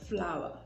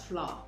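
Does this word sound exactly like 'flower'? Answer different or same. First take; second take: same; different. First: It sounds exactly like the word 'flower'. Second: It sounds different from the word 'flower'. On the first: The speaker calls it right. "the correct pronunciation is flower, just the same way you would pronounce this one" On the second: The speaker calls it wrong. "a lot of us grew up knowing or pronouncing these as"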